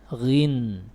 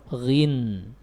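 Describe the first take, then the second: No difference in how they are said.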